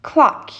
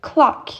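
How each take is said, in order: Both takes have the same delivery.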